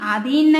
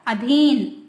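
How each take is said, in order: First: The first vowel is a long 'aa'. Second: The first vowel is a short 'a'. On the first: The speaker calls it wrong. "आधीन नहीं ये गलत है" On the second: The speaker calls it right. "इसमें छोटा आएगा"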